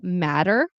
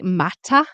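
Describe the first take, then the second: First: The middle T is a soft D-like flap. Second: The middle T is a crisp T. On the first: "which sounds like a D or an R" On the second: "You probably say mata"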